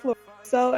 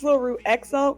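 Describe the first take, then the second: First: The name ends with a plain 'so' sound. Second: The name ends with an 'ex-o' sound. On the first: The speaker calls it right. "it's pronounced Lorusso" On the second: The speaker calls it wrong. "a lot of people think it's Loruexo"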